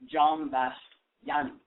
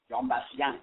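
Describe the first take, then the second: First: The name is said slowly and carefully. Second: The name is said quickly and smoothly.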